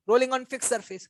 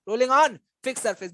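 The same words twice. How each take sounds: First: Said in the usual way. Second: "rolling on" drawn out slowly, stress on "on"; slow teacherly emphasis on "rolling on"; emphatic repetition. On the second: Shown as a demonstration. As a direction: stretch "on", pause, then "fixed surface". Teacher repeats the term for emphasis.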